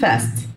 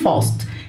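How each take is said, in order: First: It is said in an American accent. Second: It is said in a British accent. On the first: "بالنطق الامريكان بنقول fast" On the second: "بالنطق البريتش البريطاني بنقول fast"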